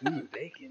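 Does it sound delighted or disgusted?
delighted. It sounds delighted, like a pleasant smell.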